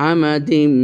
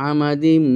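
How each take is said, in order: The two takes are said the same way.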